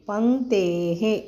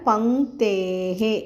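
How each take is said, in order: No difference in how they are said.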